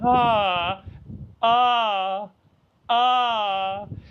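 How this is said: The voice is soft, gentle and sighing. The speaker calls it right. "this approach of gentleness, this approach of this sighing, this moaning"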